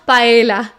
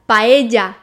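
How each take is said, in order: First: The double L sounds like an L. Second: The double L sounds like a Y. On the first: The speaker calls it wrong. "not paella" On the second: The speaker calls it right. "when you have two L's together, it's pronounced J"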